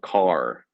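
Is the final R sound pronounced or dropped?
pronounced. The word ends with a pronounced R sound. The speaker calls it wrong. "not car"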